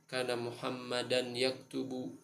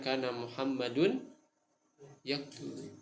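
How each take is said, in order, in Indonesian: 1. Nama itu diakhiri dengan bunyi 'an'. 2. Nama itu diakhiri dengan bunyi 'un'.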